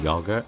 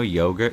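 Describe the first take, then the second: First: It is said with a plainer, less posh pronunciation. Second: It is said with a posh British pronunciation.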